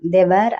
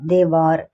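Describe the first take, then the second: First: The second word sounds like 'wair'. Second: The second word sounds like 'war'. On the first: The speaker calls it wrong. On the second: The speaker calls it right.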